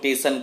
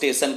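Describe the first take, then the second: First: The word begins with a plain 't' sound. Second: The word begins with an 'st' cluster. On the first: This is a regional form. "टेशन कहता है" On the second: This is the standard form. "स्टेशन को"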